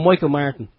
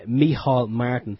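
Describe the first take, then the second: First: The first name has an English pronunciation. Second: The first name has an Irish pronunciation. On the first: The speaker calls it wrong. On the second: The speaker calls it right.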